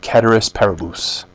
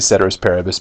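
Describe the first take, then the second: First: It is pronounced in a Latin-style way. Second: It is pronounced in an English-style way. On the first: "a more um, literal ... pronunciation of this Latin term" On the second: "I'm just going to say ceteris paribus because that's about all I can handle"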